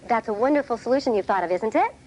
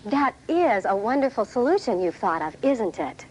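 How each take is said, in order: First: The voice rises at the end like a doubtful question. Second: The voice falls at the end like a statement.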